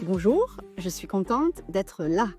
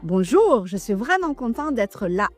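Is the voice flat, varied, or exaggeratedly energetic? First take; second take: varied; energetic. First: It is said with varied intonation. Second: It is said with exaggerated energy.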